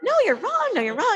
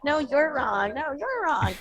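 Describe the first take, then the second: First: High, sing-song mock contradiction; retold disagreement. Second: Smiling, drawn-out sing-song contradiction; smiling disagreement. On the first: Woman at the bar disputes the speaker, high mock insistence. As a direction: argue back in an exaggerated, much higher pitch. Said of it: "So we were disagreeing". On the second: Retold or imitated. Both sides civilly disagree with each other, playful smiling tone. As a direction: argue good-naturedly, smile in the voice. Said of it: "smiling and like".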